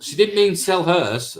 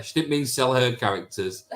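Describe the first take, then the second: First: "mean" drawn out, higher and slow; stress on mean. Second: Said in the usual way. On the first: Real, not acted. To the chat, correcting a misread comment, stress on "mean". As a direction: lean on "mean" as you put her right.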